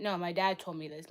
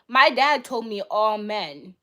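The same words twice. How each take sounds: First: Said in the usual way. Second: "my dad told me all men," said slowly and loudly, leaning hard on "my"; slow emphatic stress. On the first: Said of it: "My dad, actually". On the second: Real, not acted. To the chat, insisting that "my dad told me all men," slowly and loudly. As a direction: drive each word home, slow and loud, stressing "my".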